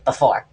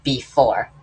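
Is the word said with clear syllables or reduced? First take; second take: reduced; clear syllables. First: The two syllables are run together and reduced. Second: Both syllables are pronounced fully and distinctly. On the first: "they say before" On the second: "actually pronounce the two syllables"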